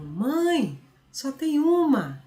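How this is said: There is a pause after the first word. The mother is being addressed directly. "Aí ele muda a entonação"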